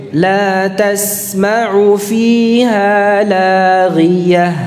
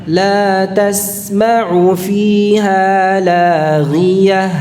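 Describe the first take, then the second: No difference in how they are said.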